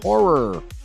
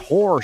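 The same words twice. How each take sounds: First: The final R sound is clear. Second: The final R sound is dropped. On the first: The speaker calls it right. "horror with a hard R at the end of it" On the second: The speaker calls it wrong. "She does kind of say it like that"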